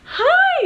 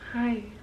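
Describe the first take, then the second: First: It is said with high, bubbly energy. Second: It is said with low, flat energy.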